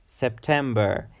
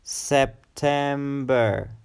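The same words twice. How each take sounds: First: Said in the usual way. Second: September drawn out slowly in three syllables, SEP-TEM-BER. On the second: Shown as a demonstration. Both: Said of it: "It's a three-syllable word".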